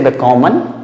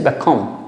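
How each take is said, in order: First: The final syllable is said with a full vowel. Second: The final syllable is reduced with no clear vowel. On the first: The speaker calls it wrong. "Don't say bekommen" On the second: The speaker calls it right. "just bekommen"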